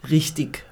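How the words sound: It is said the southern German way. "der Süddeutsche sagt"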